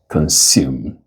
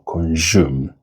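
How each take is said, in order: First: The consonant after "con" is a hissing S. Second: The consonant after "con" is a J sound. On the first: The speaker calls it right. "it is consume with voiceless fricatives" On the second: The speaker calls it wrong. "it's not J"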